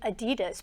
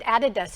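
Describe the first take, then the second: First: It is pronounced the familiar English way. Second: It is pronounced the way Germans say it. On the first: "I had grown up with it being Adidas" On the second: "in Germany, they said Adidas"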